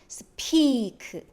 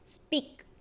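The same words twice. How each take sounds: First: The p is released with a puff of air. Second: The p is tense, with no puff, near b. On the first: The speaker calls it wrong. "then P is not speak" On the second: The speaker calls it right. "it's speak, B"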